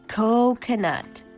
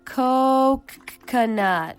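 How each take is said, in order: First: The opening k sound is drawn out and emphasized. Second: The middle k sound is drawn out and emphasized. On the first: "emphasizing a different sound each time, like this. ... A K?" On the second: "What's next? Another K?"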